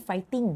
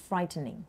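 First: Fighting with no R after the F; without the R. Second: Frightening with an R after the F. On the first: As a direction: model fighting as fight-ting, no R. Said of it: "ไม่มีตัว R". (fighting ออกเสียงไม่มีตัว R) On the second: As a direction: model frightening as fright-ning, R sounded. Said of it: "มีตัว R". (frightening ออกเสียงมีตัว R) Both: Shown as a demonstration.

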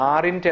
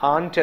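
First: "aren't" with the R sounded, as "are-int"; mispronounced "aren't", R and extra vowel; wrong pronunciation. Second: "aren't" as one syllable, "ahnt"; "aren't" with long AH, no R; correct pronunciation. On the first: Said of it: "aren't എന്നല്ല". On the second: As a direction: say "aren't" with a silent R. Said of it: "aren't എന്നാണ് പറയേണ്ടത്". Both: Shown as a demonstration.

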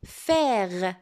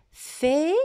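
First: "Faire" as one joined, lengthened word, lower pitch; whole word dictation. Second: "Faire" split in two, fai… re, first part rising; syllable by syllable. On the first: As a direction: say "Faire" whole, drawn out and falling. (« Faire » dit en entier, en allongeant) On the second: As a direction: dictate "Faire" as two syllables, final e sounded. (« Faire » découpé en deux syllabes, fai… re) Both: Shown as a demonstration. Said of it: "Ce mot se compose de deux syllabes".

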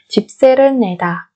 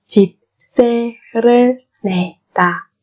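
First: Said in the usual way. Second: Slow 집세를 내다, each syllable separate. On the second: Shown as a demonstration. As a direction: space out every syllable of 집세를 내다. (đọc 집세를 내다 chậm từng âm tiết)

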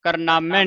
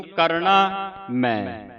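First: ਕਰਨਾਮੈ with naa joined onto mai; run together, wrong split. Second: Slow ਕਰਨਾ ਮੈਂ, na kept with kar; split words. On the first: Teacher warns against this reading, last syllables run together. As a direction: run ਕਰਨਾਮੈ on as "kar-naamai". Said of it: "ਨਹੀਂ ਬੋਲਣਾ ਇਸ ਨੂੰ". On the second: Teacher shows where naana belongs, two separate words. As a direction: say ਕਰਨਾ as one unit, then ਮੈਂ apart. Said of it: "ਰਾਰੇ ਦੇ ਨਾਲ ਆਉਣਾ". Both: Shown as a demonstration.

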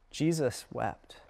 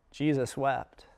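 First: "Jesus wept." said slowly and softly, a pause before "wept"; solemn pause. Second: Said in the usual way. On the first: Shown as a demonstration. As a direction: let "Jesus wept." sink in slowly, hushed.

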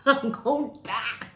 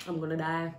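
First: Loud, higher-pitched laughing outcry; mock panicked cry. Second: Said in the usual way. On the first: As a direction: cry out in exaggerated doom. Same words cried out, laughing.

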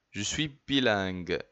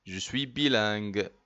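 No difference in how they are said.

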